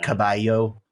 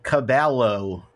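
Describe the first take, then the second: First: The double L is not said as an L. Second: The double L is said as an L sound. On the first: The speaker calls it right. "instead of like" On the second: The speaker calls it wrong.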